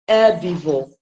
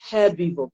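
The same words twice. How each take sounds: First: The word starts with no h sound. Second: The word starts with an audible h sound. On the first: This is the American pronunciation. "the Americans pronounce the word as herbivore without the sound" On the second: This is the British pronunciation. "because it begins with the"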